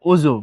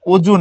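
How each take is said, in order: First: অজু said "ozu", with a buzzing z; correct z sound. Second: অজু said "oju", pressed j and louder; wrong j sound. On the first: Teacher correcting to the spoken form, অজু with z. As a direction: let অজু buzz on z. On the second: Teacher rejecting this pronunciation, অজু with j. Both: Shown as a demonstration. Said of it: "বর্গীয় জ দিয়ে এটার উচ্চারণ হয় না".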